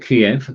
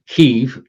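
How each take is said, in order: First: The name is said the Russian way. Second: The name is said a non-Russian way. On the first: The speaker calls it wrong. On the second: The speaker calls it right.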